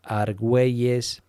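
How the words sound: The name is said with a Spain Spanish pronunciation. "in here in Spain is"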